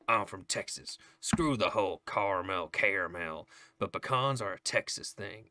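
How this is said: It is read in a put-on Southern twang.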